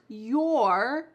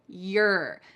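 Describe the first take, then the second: First: The vowel is full and clearly pronounced. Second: The vowel is weak and shortened. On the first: "you're going to hear a contraction" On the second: "reduced even more"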